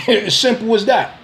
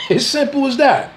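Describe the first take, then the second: First: Said in the usual way. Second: "As simple as that" said again higher, with a laugh; laughing repeat. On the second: Real, not acted. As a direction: laugh it off the second time, pitched up.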